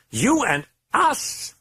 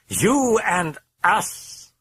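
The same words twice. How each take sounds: First: High, slow, savouring demon voice; creeping demonic purr; drawn-out demon taunt. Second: High, very slow, savouring demon voice; menacing drawn-out demonic promise; slower demon taunt. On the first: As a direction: stretch each word like a threat. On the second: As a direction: let it crawl out word by word. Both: A narrator's reading.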